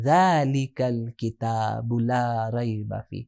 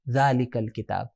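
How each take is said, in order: First: Very slow, low, soft recitation; hushed, stretched verse reading; Quran recitation. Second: Said in the usual way. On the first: Shown as a demonstration. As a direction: recite with long drawn-out vowels. Reciting the verse, then repeating it.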